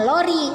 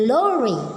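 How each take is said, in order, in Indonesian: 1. Bunyi r-nya diucapkan dengan cara Indonesia. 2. Bunyi r-nya diucapkan dengan cara Inggris. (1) "bukan lori" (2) "beda pengucapan R-R-nya aja, dia ke barat-baratan"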